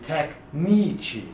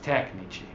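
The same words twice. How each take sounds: First: The stress is on the second syllable. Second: The stress is on the first syllable. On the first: The speaker calls it wrong. "if the stress were on the second last syllable, it would be" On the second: The speaker calls it right. "but it's"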